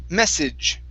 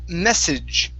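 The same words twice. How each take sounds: No difference in how they are said.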